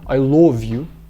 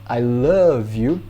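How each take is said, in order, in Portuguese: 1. Love tem uma vogal 'o' arredondada. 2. Love tem uma vogal 'uh' aberta. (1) "norte da Inglaterra é lo, com som de o mesmo" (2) "em inglês americano"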